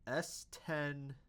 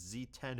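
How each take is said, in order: First: "S ten" with the letter S said as "ess"; "S ten" spoken as ess ten; misread letter. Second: "Z ten" with the letter Z said as "zee"; "Z ten" spoken as zee ten; corrected letter. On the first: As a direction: read "S ten" as ess ten, the mistaken reading. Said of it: "that's not supposed to be an S". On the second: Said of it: "that's supposed to be a Z". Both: Real, not acted.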